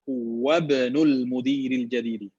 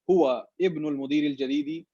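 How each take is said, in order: First: The glottal stop before 'ibn' is dropped and linked. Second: The glottal stop before 'ibn' is clearly pronounced. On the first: The speaker calls it right. "That's the correct way of saying it" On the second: The speaker calls it wrong. "that's fine as well. But it's not in terms in line with tajweed"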